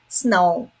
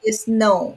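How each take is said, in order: First: The word starts directly with the s sound. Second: An extra vowel sound comes before the s. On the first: The speaker calls it right. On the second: The speaker calls it wrong.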